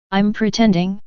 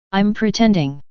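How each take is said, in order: First: "pretending?" rising in disbelief; "I'm pretending?" asked back with a rising tune; incredulous question. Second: "pretending" falling, mock admission; "I'm pretending." stated flatly with a falling tune; sarcastic agreement. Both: A narrator's reading.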